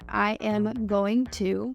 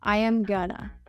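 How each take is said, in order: First: Each word is said fully as going to. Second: Going to is reduced to gonna. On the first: "instead of saying I am going to"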